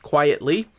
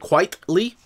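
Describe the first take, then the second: First: It has three syllables, like qui-et-ly. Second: It has two syllables, like quite-ly. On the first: The speaker calls it wrong. "not quietly" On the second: The speaker calls it right. "I believe is how you say his name"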